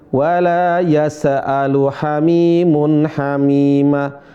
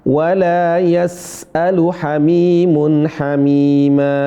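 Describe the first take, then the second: No difference in how they are said.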